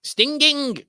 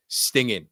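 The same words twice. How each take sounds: First: "Stinging" as high, loud sting-ging; mock "Stinging" Manc-style, both Gs hard, pitched right up; exaggerated Manc hard G. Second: "Stinging" ending on a firm N, no G; hard N ending. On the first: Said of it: "it just doesn't sound right". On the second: Shown as a demonstration. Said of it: "a hard N at the end".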